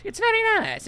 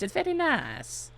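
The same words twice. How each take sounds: First: Very high mock squeak; squeaky high voice. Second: Softer, slower murmured take; quiet slower aside. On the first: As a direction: pitch way up like a cartoon. Mock high take on a line. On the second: Pretend. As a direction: say it quietly to yourself. Second take, dropped back.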